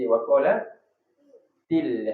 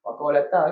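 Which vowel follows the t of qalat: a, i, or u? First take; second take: i; a. First: The t is followed by an i vowel. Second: The t is followed by an a vowel. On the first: The speaker calls it right. "Jadi waqalatil" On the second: The speaker calls it wrong.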